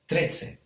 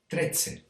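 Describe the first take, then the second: No difference in how they are said.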